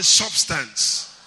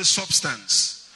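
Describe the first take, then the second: First: Louder, drawn-out call to repeat. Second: Said in the usual way. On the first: Shown as a demonstration. Preacher getting congregation to repeat substance, out loud. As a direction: say it loud for everyone to echo. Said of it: "say it out loud".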